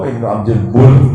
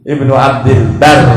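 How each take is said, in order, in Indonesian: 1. Kata terakhir memiliki vokal u. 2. Kata terakhir memiliki vokal a. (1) "Abdul Bar bukan Abdul Bur" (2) "Namanya ulama Ibnu Abdul Bar"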